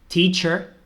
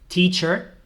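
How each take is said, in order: Both takes have the same delivery.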